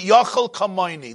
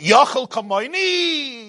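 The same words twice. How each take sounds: First: It is said as a falling statement. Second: It is said as a rising question.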